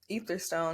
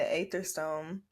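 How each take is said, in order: First: The name begins with an 'ee' sound. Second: The name begins with an 'ay' sound. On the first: The speaker calls it right. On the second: The speaker calls it wrong. "There it goes again"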